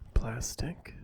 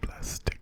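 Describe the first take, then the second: First: It is said in a soft, normal voice. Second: It is barely audible, almost silent. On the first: "in a normal soft-spoken voice like" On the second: "all the way down in my inaudible voice"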